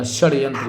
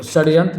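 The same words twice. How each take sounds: First: Said in the usual way. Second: षड्यंत्र opening with s, "sadyantra"; mispronounced षड्यंत्र. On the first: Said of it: "इस तरह से लिखा जाता है". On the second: Shown as a demonstration. Teacher showing the wrong form, षड्यंत्र with initial s. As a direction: use a plain s for sh. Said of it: "षड्यंत्र नहीं होता".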